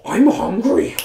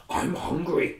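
First: Much higher and louder I'm hungry, whiny; loud hungry pig. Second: Whispered I'm hungry. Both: Acted. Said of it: "and said".

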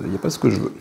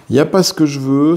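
First: Said in the usual way. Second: Louder, annoyed at the dice; frustrated repeat. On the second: Real, not acted. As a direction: let the irritation out on "pas". Mauvais lancer de dés, répété. (répétition agacée, plus forte, appui sur "pas")

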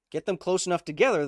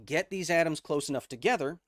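First: "Get them close enough together" said higher and louder, pushing "together"; emphatic repeat. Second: Said in the usual way. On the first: Shown as a demonstration. Teacher repeats the key idea to chat, louder and higher for emphasis. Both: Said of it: "Remember what we said".

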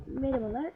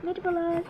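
First: Lightly voiced boss, softer reply; employer. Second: Lightly voiced job applicant; job seeker. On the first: Café boss answering the job seeker, lightly played employer. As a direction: return the greeting softly, as pretend staff. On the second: Girl greeting the café staff for work, lightly played job seeker. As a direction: greet as a pretend newcomer, slightly lifted.

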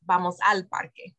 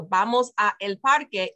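First: "a el" merged into one syllable "al" in "vamos al parque"; "al" said as one joined word; contracted "al". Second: "a" and "el" as two separate words in "vamos a el parque"; "a el" said without contracting to "al"; uncontracted "a el". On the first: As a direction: smush it into a single "al". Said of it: "smush those two words together". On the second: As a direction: keep "a el" apart, unmerged. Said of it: "you can't say a él". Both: Shown as a demonstration.

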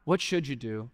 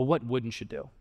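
First: Said in the usual way. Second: "wouldn't" leaned on, rising at the end; emphatic rising "What wouldn't you do?"; stress on wouldn't. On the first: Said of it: "embodied the attitude of not". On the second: Shown as a demonstration. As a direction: hit "wouldn't" as the real question.

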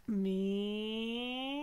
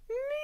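First: "Meow" starting low and sliding up; rising cat call from low to high. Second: "Meow" starting high and sliding down; sliding cat call from high to low. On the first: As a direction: lift the "Meow" from the bottom upward. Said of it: "from low to high". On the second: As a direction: drop the "Meow" from the top to the bottom. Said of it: "going from high to low". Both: Shown as a demonstration.

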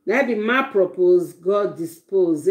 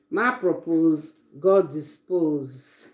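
First: Said in the usual way. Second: Drawn-out, slow repeat of the proverb. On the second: Shown as a demonstration. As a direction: savor each word slowly, like a saying.

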